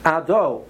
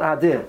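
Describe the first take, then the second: First: The second vowel is a clear O sound. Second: The second vowel is an I sound. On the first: The speaker calls it right. "the correct way to say Hashem's name is Ado" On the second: The speaker calls it wrong. "not Adi"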